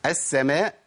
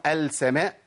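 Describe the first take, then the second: First: "السماء" said "as-samaa", slowly, no l; merged lam. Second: "السماء" said "al-samaa" with a clear l; sounded lam. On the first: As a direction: double the s and drop the l in "السماء". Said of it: "وأنا بقول إيه؟". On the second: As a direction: wrongly pronounce the l before s in "السماء". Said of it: "ينفع أقول السماء؟". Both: Shown as a demonstration.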